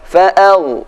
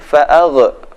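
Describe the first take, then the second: First: The gh sound is held smoothly without a bounce. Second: The gh sound is released with an echoing bounce. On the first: The speaker calls it right. "Yang benar" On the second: The speaker calls it wrong. "Jangan sampai"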